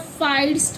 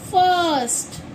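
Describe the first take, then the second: First: The vowel sounds like 'eye'. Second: The vowel sounds like 'uh'. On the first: The speaker calls it wrong. "नहीं" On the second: The speaker calls it right. "हम इसे पढ़ेंगे फर्स्ट"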